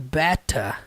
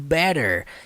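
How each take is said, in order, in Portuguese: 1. O t é forte, em sotaque britânico. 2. O t é leve, em sotaque americano. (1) "o sotaque britânico carrega aquele peso na hora de pronunciar o T" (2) "Não é pronunciado better, igual o inglês americano"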